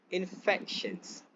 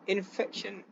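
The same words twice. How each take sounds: First: "infections" drawn out slowly, stress on FEC; stress on second syllable. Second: "infection" with the stress on IN; stress on first syllable. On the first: Presenter showing the BBC stress, in-FEC-tions, second syllable stressed. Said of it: "stress on second syllable". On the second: Presenter showing the local news stress, IN-fection, first syllable stressed. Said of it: "stress on first syllable". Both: Shown as a demonstration.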